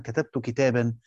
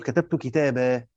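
First: كتابا ending in a sounded n, "kitaban"; tanween in connected form. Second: كتابة ending in long open aa, "kitabaa"; pausal alif. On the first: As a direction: say كتابا with final nunation. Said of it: "لما أقول مثلًا". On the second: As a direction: stop on كتابة with no final n. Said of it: "لما أجي أقف عندها أقول". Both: Shown as a demonstration.

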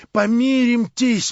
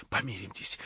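First: High, loud and slow begging cry; desperate plea. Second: Soft, low hushed plea; convulsive whisper. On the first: Verkhovensky begging Stavrogin loudly to make peace. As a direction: beg him loudly, dragging it out. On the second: Verkhovensky pleading with Stavrogin in a hushed whisper. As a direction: breathe the plea out in a tense hush. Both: A narrator's reading. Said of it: "прошептал он ему судорожным шёпотом".

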